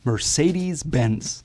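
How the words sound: It is said with an American accent. "That's at least the way Americans say it"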